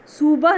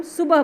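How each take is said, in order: First: सुबह with the u drawn out long, soo-bah. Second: सुबह with a quick short u, su-bah; सुबह said crisply, the u clipped short. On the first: Teacher showing pupils the wrong long-u सुबह. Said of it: "सुबह नहीं बोलते". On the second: Teacher modelling the right सुबह for pupils, short u. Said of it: "क्योंकि हम सुबह बोलते हैं". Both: Shown as a demonstration.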